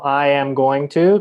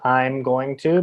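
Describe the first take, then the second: First: Every word is said fully and separately. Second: I am is contracted; going to stays full. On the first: "So I am going to" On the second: "becomes I'm going to"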